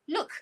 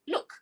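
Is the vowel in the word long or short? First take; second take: short; short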